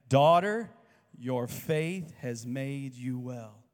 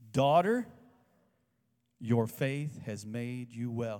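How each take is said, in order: First: Very loud rising "Daughter," then very slow "your faith has made you well"; "Daughter," belted out, the rest drawn out slowly; repeat with the congregation. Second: Loud rising "Daughter," then slow "your faith has made you well"; leading a call-and-response. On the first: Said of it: "Say that". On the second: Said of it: "say this with me". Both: Shown as a demonstration.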